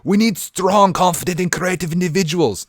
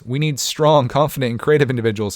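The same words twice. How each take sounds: First: It is said in a put-on Russian accent. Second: It is said in the speaker's plain accent.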